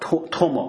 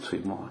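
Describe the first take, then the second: First: The first syllable is pronounced tuo. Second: The first syllable is pronounced chui. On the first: The speaker calls it right. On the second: The speaker calls it wrong.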